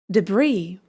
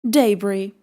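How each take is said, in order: First: It is said with an American English pronunciation. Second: It is said with a British English pronunciation.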